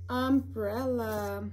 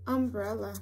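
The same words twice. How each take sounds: First: Umbrella drawn out slowly, syllable by syllable; sounding out words. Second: Said in the usual way. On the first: Shown as a demonstration. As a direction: stretch out umbrella slowly for a child. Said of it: "U is for". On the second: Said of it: "U is for umbrella".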